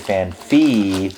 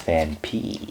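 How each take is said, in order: First: The second part starts with an F sound. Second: The second part starts with a P sound. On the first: The speaker calls it wrong. "a lot of people say fan fee, but there is no pH" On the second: The speaker calls it right. "And it's fan P"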